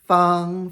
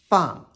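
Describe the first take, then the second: First: The pitch stays high and level. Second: The pitch falls sharply from high to low.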